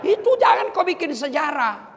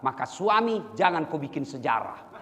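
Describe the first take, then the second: First: Itu jangan kau bikin sejarah shouted high and loud, stress on itu; loud preacher's warning; emphatic repeat. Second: Said in the usual way. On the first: Shown as a demonstration.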